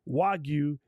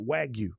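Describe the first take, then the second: First: It is said with Japanese-style sounds. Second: It is said with English-style sounds. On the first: The speaker calls it right. "properly say" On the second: The speaker calls it wrong. "and not"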